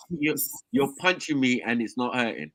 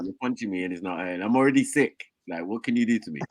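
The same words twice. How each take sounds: First: Slow, lightly crusty imitation; crusty sick voice. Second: Lower, softer crusty sick voice. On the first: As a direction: drag it out like a shrugging sick guy. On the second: Retold or imitated. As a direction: mumble it low like you're ill. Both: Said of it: "the Ponytail voice, all crusty".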